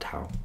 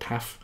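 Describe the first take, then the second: First: The word ends with an ow sound. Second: The word ends with an f sound. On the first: This is how English speakers say it. "but I'm going to call it tau" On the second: This is how Greek speakers say it. "I think they pronounce it taf in Greek"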